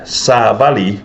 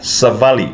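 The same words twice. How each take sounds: First: The first vowel is long. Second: The first vowel is short. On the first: A message. "with a long a" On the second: To walk. "with a short a"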